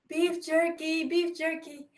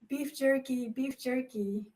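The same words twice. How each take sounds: First: It is said louder. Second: It is said quietly and shyly.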